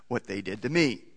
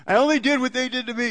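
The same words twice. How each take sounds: First: Said in the usual way. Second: Put-on high, fast sulky kid excuse; whiny child. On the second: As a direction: play a child talking back, higher and quicker.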